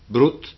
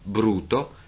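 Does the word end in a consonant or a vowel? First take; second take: consonant; vowel. First: The word is cut short, ending on a consonant. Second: The word is full, ending on a vowel. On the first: This is the inland dialect form. "parole tronche" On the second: This is the Venetian form. "le corrispondenti parole piane più proprie del veneziano"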